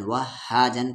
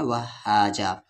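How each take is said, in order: First: Said in the usual way. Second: वहाजा ending on an open aa, no n; stopping form. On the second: Shown as a demonstration. Teacher showing the pause form, वहाजा ending open. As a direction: finish वहाजा on a long vowel and stop. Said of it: "रुकने की सूरत में".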